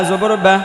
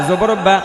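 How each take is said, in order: No difference in how they are said.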